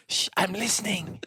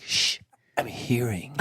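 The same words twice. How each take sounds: First: Light mock hush, a hint of a put-on voice; shushing ear. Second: A hint of a lower, slow hushing voice; shushing ear. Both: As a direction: shush them like a fussy little ear.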